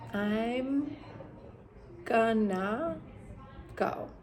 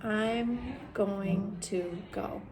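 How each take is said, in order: First: Going to is reduced to gonna. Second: Going to is said fully, as two words. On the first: "is going to be gonna" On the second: "the going to"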